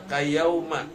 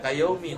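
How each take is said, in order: First: The word ends with an 'a' vowel. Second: The word ends with an 'i' vowel. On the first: The speaker calls it right. "tapi bacanya kayauma" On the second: The speaker calls it wrong. "jangan dibaca kayaumi"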